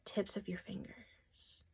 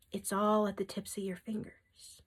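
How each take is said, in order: First: Slow, much softer whisper on "tips of your fingers"; whispered emphasis. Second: Said in the usual way. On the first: Shown as a demonstration. Reader repeats Spirit's emphasis to viewers in a slow whisper. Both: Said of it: "Emphasis from Spirit".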